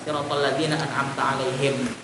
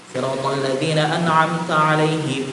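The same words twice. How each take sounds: First: It stops completely after alaihim. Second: It runs on without stopping after alaihim. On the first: "diwakafnya siratal ladzina an'amta 'alaihim itu aja" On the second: "Ini bacaan kalau digabung"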